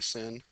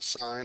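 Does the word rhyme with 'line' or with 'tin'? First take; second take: tin; line. First: The vowel is short, like 'sin'. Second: The vowel is long, like 'sign'. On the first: The speaker calls it wrong. "I don't want you to say sin" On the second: The speaker calls it right. "I still want you to pronounce it sine"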